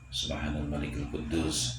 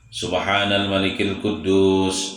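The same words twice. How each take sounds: First: The phrase is said quietly. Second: The phrase is said loudly.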